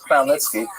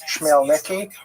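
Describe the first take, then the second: First: It begins with a throaty 'kh' sound. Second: It begins with a 'ch' sound, American-style. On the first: The speaker calls it right. "but the pronunciation is Khmelnytsky" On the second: The speaker calls it wrong. "sometimes horribly mispronounced Chmielnicki, because that's the Polish spelling with an American pronunciation"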